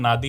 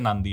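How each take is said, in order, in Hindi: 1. यह शब्द "d" से पहले "n" के बिना बोला जाता है। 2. यह शब्द "d" से पहले "n" के साथ बोला जाता है। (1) "स्पेलिंग नादी है" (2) "वैसे नांदी है भाई"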